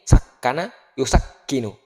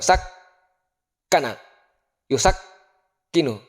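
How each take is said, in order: First: The doubled k is held only briefly. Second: The doubled k is held for three beats. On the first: The speaker calls it right. "Prakteknya ini" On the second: The speaker calls it wrong. "Coba bayangkan kalau kita tahan tiga ketukan"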